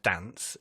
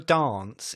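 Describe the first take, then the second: First: The word is said in a plain accent. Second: The word is said in a posh accent. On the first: This is the ordinary way of saying it. "instead of" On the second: This mimics how the other person talks. "you say words in the posh way"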